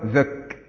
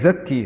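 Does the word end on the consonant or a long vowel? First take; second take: consonant; long vowel. First: The word ends on the k sound. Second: The word ends with a long ee vowel. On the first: The speaker calls it right. "ولكن هو زك، يعني عند السكوت تقول هكذا" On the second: The speaker calls it wrong. "فلا تقل زكي، هذا غلط"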